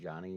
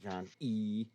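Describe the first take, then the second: First: The name is said smoothly with a plain ending. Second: The final E is said separately and stressed. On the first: "instead of just saying Johnny" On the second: "The way you enunciate the E in that"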